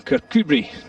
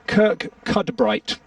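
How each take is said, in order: First: The name is said the way locals say it. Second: The name is said following its spelling. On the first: The speaker calls it right. "There we go" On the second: The speaker calls it wrong. "hold tight for this, you'll enjoy it"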